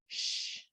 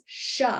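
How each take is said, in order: First: The sound ends cleanly with no added vowel. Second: The sound ends with an added 'uh' vowel. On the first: The speaker calls it right. "without a big uh sound at the end" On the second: The speaker calls it wrong. "rather than"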